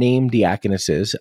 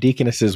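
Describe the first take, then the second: First: The word has five syllables, dee-uh-kon-ess-es. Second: The word has four syllables, dee-kon-ess-es. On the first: The speaker calls it wrong. "You're saying diaconesses, which I've never heard before" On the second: The speaker calls it right. "Deaconesses would have worked just fine"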